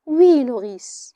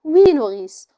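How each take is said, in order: First: Slow, faintly smiling yes; with a faint smile. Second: A tired, resigned yes; suddenly weary. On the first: Antigone answering her scolding nurse with a faint smile. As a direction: answer with a barely hidden smile. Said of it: "Antigone a encore un sourire imperceptible". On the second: Antigone suddenly weary of her nurse's threats. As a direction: let the fight drain out of it. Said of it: "Antigone soudain un peu lasse". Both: Acted.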